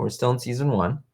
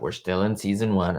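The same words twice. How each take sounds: First: It sounds happy and upbeat. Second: It sounds disappointed and weary. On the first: The speaker is glad that it is still season one. "And I say that in a happy way" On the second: The speaker is fed up that it is still season one. "I'm not like"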